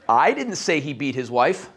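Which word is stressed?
I. The stress falls on the first word. Someone else said it. "Somebody else said it"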